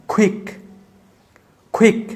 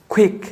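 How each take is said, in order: First: "কুইক" with a puffed kh onset; aspirated q. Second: "কুইক" as kuik, with a plain k; unaspirated q. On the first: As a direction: say "কুইক" as khwik. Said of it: "কুইক বলবো না". ("কুইক" শুরুতে খ উচ্চারণ) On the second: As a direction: start "কুইক" on a dry ক. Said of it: "এটাকে আমরা কুইক বলবো না". ("কুইক" শুরুতে সাদা ক) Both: Shown as a demonstration.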